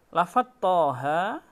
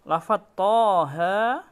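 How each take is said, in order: The two takes are said the same way.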